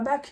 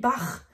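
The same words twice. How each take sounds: First: The word ends with a hard k sound. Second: The word ends with a throaty rasping sound. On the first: The speaker calls it wrong. "qu'on appelle tous Bach en français, ça se dit pas Bach" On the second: The speaker calls it right. "ça se dit Bach ... avec bien le R"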